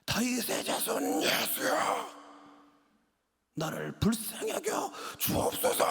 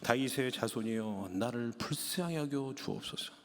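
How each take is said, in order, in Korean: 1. 최대한 큰 소리로 외칩니다. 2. 차분하고 다듬어진 목소리로 말합니다. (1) "큰 소리로" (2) "저처럼 이렇게 멋있게 얘기하지 않았습니다"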